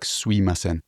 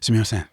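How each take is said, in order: First: The 'm' sound is dropped after 'su'. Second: The word is said in full with 'mi'.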